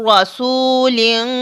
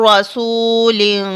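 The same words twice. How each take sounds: No difference in how they are said.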